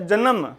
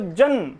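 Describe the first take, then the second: First: The n has a vowel after it: two syllables. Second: The n has no vowel after it: one syllable. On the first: "यहां पर स्वर युक्त है तो जन्म" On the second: "यहां पर नय जो है ये स्वर रहित है तो जन्म"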